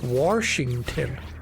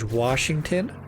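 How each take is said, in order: First: It is said with the local regional pronunciation. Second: It is said with the standard pronunciation.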